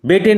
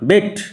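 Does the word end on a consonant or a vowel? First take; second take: vowel; consonant. First: The word ends with an extra vowel sound. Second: The word ends on the final t sound. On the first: The speaker calls it wrong. "বেটে নয়" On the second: The speaker calls it right. "উচ্চারণ লক্ষ্য করো"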